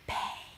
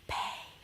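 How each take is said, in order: Both takes have the same delivery.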